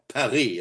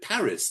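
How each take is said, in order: First: It is said with a French pronunciation. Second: It is said with an English pronunciation. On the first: This is the name the locals use. "as they do in France" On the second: This is the name English speakers use. "We call it Paris"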